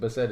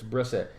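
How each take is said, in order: First: The name is said without an r after B. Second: The name is said with an r after B. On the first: The speaker calls it wrong. "I was saying that wrong. I was saying Bissett" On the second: The speaker calls it right. "It's Brissett"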